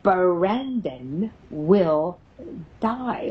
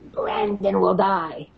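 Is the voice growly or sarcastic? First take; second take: sarcastic; growly. First: It is said in a mocking, sarcastic tone. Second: It is said in a low, growly voice. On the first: "The sarcastic little SOB says, ... like this" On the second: "in this growly voice"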